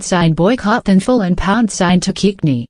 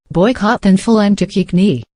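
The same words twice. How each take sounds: First: "thanful" and "Tukikni" read exactly as misspelled; mangled hashtags. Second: Sounding out the troll hashtags "thanful" and "Tukikni" just as written; mangled hashtags. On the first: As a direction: read "thanful" and "Tukikni" as the trolls typed them. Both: Shown as a demonstration. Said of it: "Russians were playing both sides".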